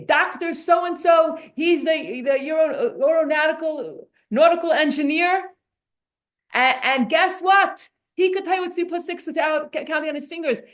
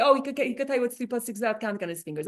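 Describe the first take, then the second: First: Hammed-up proud host showing off a speaker; grand mock introduction. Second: Fast, softer, brushing-off tone; mocking a praise that insults; dismissive mock quote. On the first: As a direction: introduce a guest as if it's a great honor. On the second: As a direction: rattle it off like a lame compliment. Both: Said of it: "to introduce him and say".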